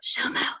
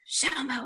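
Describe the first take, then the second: First: It is whispered. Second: It is spoken in a normal voice.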